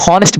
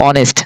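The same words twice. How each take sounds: First: "হনেস্ট" with an audible h at the start; sounded H. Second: "অনেস্ট" starting on the vowel, no h; silent H. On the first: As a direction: say "হনেস্ট" with the H pronounced. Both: Shown as a demonstration. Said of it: "যেমন হনেস্ট বলি নাই".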